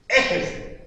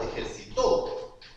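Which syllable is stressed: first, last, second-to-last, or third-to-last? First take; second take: first; last. First: The stress is on the first syllable. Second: The stress is on the last syllable. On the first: It is not a real word. The speaker calls it wrong. "En la primera E, nada, porque ahí no existe esa palabra" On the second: Someone exercised in the past. The speaker calls it right. "Se acentúa en la última"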